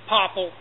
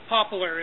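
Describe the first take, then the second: First: The word ends with a plain 'l' sound. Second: The word ends with an 'lar' sound. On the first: This is the local regional name. The speaker calls it wrong. "the Hicks here in Maine call them pop, popple" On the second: This is the standard name. The speaker calls it right. "poplar is the correct name"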